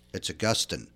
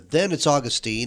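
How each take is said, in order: First: The name is pronounced as for the man. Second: The name is pronounced as for the city. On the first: It refers to the saint. "when I'm talking about the man" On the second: It refers to the city in Florida. "If I'm talking about a city in Florida"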